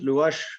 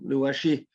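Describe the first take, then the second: First: The name ends in a consonant sound. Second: The name ends in a vowel sound. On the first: "Some people pronounce it Luash" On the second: "some Luashi"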